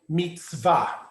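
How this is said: It is said in modern Hebrew style.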